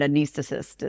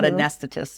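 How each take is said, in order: First: It is said the way non-Americans say it. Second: It is said the way Americans say it. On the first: "anesthetist is how they" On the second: "not anesthetist as we say"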